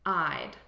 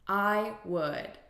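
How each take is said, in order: First: It is said as one contracted syllable. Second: It is said as two full syllables. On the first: "notice here the contraction" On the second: "This is a contraction of I would"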